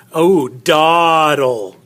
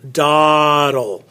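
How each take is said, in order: First: Dawdle said slowly with a long open ah; sounding out dawdle. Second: Said in the usual way. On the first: Shown as a demonstration. Teacher modelling dawdle slowly for students. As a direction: draw out the ah in dawdle. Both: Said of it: "That ah".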